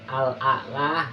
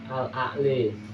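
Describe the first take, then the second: First: The final vowel is a plain open 'a'. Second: The final vowel is tilted toward 'i'. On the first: "Yang awalnya Al-A'la" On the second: "menjadi Al-A'li dan dibaca imalah"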